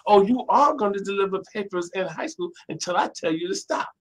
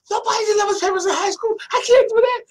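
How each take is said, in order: First: Imitated mother, higher, stressing "are"; mother's firm retort. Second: Very high, loud, squealed imitation of objecting; a put-on squeal of youthful protest; mock outraged protest. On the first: Mother overrules her protesting son, firm retort with "are" stressed. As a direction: lean hard on "are" as an overruling parent. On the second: Son objects to mother's paper-route order, mock outraged squeal.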